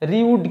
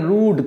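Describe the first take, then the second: First: The vowel starts with a y glide. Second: The vowel is a plain oo sound. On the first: The speaker calls it wrong. "রিউড কিন্তু এটা নয়" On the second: The speaker calls it right. "এটা রুড"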